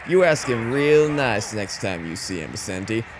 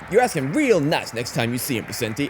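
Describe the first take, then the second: First: It is said slowly with little energy. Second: It is said quickly with lively energy. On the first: The speaker calls it wrong. "everything is slower" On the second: The speaker calls it right. "It's not like"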